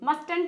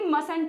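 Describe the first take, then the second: First: The middle t sound is pronounced. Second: The middle t sound is silent. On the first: The speaker calls it wrong. "मस्टंट नहीं होगी" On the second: The speaker calls it right. "मसंट होगी"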